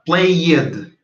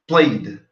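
First: The -ed ending is said as an extra syllable. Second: The -ed ending is only a D sound. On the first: The speaker calls it wrong. "Porque você não vai falar played" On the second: The speaker calls it right. "ficaria como se fosse só o som do D"

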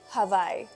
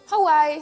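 First: The middle consonant is a V sound. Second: The middle consonant is a W sound. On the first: The speaker calls it right. "cambiar la W por la B de vaca" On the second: The speaker calls it wrong. "en lugar de decir Hawaii"

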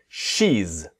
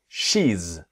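The two takes are said the same way.

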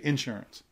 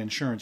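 First: It is said the Southern US way. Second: It is said the general, non-Southern way. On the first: "you say insurance" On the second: "you don't say insurance"

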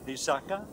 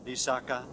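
First: Two low syllables, then a high final syllable. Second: All three syllables are on a low tone. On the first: It means a promise. "with two low and one high tone" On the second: It means a marsh or a wet place. "in three low tones"

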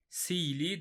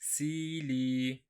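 First: The vowel is said short, not lengthened. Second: The vowel is drawn out and lengthened. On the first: The speaker calls it wrong. "sili demiyoruz" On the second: The speaker calls it right. "hemen uzatıyoruz"

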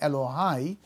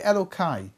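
First: The middle consonant is a soft H sound. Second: The middle consonant is a hard K sound. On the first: The divine name is said as in prayer. "Instead of saying Elohai with a hey" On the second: The divine name is altered to avoid saying it. "we say Elokai"

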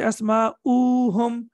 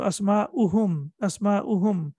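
First: The vowel after the hamza is drawn out long. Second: The vowel after the hamza is kept short. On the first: The speaker calls it wrong. "We will not say Asma'uhum. Don't prolong it for 2 seconds" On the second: The speaker calls it right. "There is no need to prolong it. We will read it as Dhamma"

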